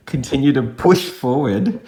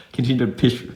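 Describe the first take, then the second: First: "push" said slowly and firmly, with a full "oo" vowel; stress on PUSH. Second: "push" fumbled through a laugh, vowel slipping toward "pish"; laughing at own slip. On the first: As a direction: redo it deliberately, leaning higher on "push". Redoes the fumbled phrase deliberately. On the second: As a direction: stumble on "push", amused at yourself. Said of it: "I'm just laughing at myself". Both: Real, not acted.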